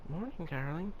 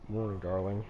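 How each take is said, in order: First: It is said in a put-on female voice. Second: It is said in his normal voice. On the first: "see if I can see this in a woman's voice" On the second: "I'm not gonna try and do a female voice"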